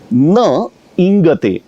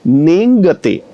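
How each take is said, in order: First: The two words are said separately. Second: The two words are merged into one sound. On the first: "इन दो शब्दों" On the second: "इन दो शब्दों की संधि से बना नेंगते"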